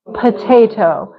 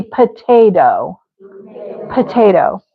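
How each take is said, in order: First: "Potato" as puh-TAY-toh with a true T; very formal. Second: "potato" as puh-TAY-doh; everyday D version. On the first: Teacher demonstrates important-meeting speech, formal potato. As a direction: articulate both Ts in potato. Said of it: "that sounds very formal". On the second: Teacher rejects formal version, potato with casual D. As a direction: tap the second T of potato like a D. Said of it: "Probably not. It'd be". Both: Shown as a demonstration.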